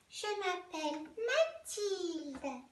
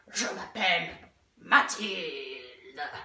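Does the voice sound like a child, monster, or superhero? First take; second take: child; monster. First: It is said in a small child's voice. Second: It is said in a monster's voice.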